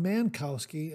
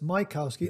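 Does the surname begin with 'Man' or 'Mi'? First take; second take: Man; Mi. First: The surname starts with the syllable 'Man'. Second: The surname starts with the syllable 'Mi'. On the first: The speaker calls it wrong. "I think I might have said Bob Mankowski" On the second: The speaker calls it right. "and it's Mikowski"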